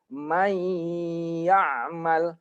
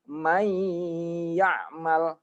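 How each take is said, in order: The two takes are said the same way.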